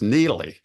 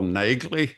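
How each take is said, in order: First: The name is said without a g sound. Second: The name is said with a g sound. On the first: This is how the name is said on television. "her name is Neely with a silent G in there" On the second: This is the author's own way of saying the name. "That's how I pronounce her name"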